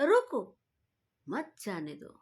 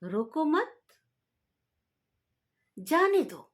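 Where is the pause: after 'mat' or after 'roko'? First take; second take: after roko; after mat. First: The pause comes after the word 'roko'. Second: The pause comes after the word 'mat'. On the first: Stop them; do not let them go. "रोक लो उसको, मत जाने दो।" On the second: Do not stop them; let them go. "यानी कि रोकना नहीं है, जाने दो उसको।"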